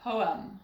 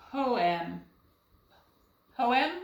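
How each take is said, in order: First: Poem with an uh in the second syllable; schwa pronunciation. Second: Poem sounded out as POH-EM with a clear short E; both syllables of poem given full vowels; trial pronunciation. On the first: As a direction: say "Poem" as POH-um. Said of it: "Let's try the schwa". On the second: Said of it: "That doesn't sound quite right". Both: Shown as a demonstration.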